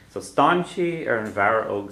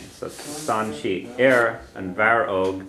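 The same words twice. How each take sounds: First: Said in the usual way. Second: Slowly, word by word, Stan she and Aaron Varog spelled out in sound; slow model reading. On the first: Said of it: "teacher repeats the phrase". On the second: Shown as a demonstration. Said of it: "teacher models the Irish slowly".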